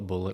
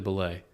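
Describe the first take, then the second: First: The name ends in a 't' sound. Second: The name ends in an open 'ay' sound. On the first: "but I call it Bullet" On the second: "Apparently it's actually Belay"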